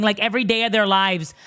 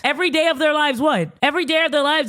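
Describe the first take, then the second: First: Said in the usual way. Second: High, disbelieving repeat of the claim; incredulous echo. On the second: Retold or imitated. Sister challenges what her brother's girlfriend claimed, incredulous. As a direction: throw it back in higher-pitched disbelief.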